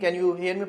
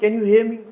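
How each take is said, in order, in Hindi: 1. यह सपाट और रूखे लहजे में कहा गया है। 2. यह गर्म और दोस्ताना लहजे में कहा गया है। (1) "मैं ऐसे नहीं कह रहा" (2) "मैं ये कहता हूँ"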